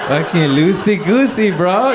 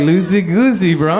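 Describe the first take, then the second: First: A hyped-up buddy cheering you on; bro coach. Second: Higher, louder chirpy echo; stoned driver parroting the coach; mock bro. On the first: Retold or imitated. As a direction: stoner friend coaching stick shift, building to loud hype. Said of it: "Adam's coaching me". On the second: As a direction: throw his own words back at him. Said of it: "I'm like".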